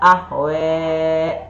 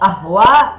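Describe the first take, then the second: First: The final vowel is shifted toward an 'e' sound. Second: The final vowel is an open 'a' sound.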